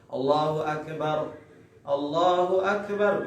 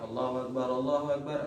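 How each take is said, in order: First: It is said slowly with a short pause between. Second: It is said quickly and run straight together. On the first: It is the call to prayer. "kalau azan itu sunnahnya itu pelan-pelan... dipisahkan dengan saktah, dengan apa namanya jeda sebentar" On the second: It is the call to stand for prayer. "kalau iqamah itu sunnahnya cepat... ya cepat ya langsung"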